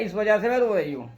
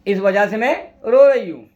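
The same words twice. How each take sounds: First: Said in the usual way. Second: इस वजह से मैं held up, pause, then a loud रो रही हूँ; emphatic repeat. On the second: Acted. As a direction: break after मैं and hit रो hard. Repeats the reply for dramatic effect.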